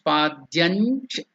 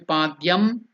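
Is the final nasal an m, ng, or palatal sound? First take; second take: palatal; m. First: The word ends with a palatal nasal sound. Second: The word ends with an m sound. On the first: The speaker calls it right. "the stress has to be on the cha" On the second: The speaker calls it wrong. "It should not be padyam"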